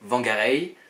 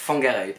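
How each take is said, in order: First: The name begins with a W sound. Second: The name begins with an F sound. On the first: This is how outsiders called the town. "une ville que nous, on appelait" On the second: This is the town's Maori name and pronunciation. "le W et le H se prononcent F en maori"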